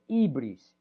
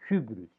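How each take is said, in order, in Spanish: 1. Se dice al estilo no erasmiano. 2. Se dice al estilo erasmiano. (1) "yo no lo pronuncio así" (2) "Los erasmianos lo pronuncian hybris"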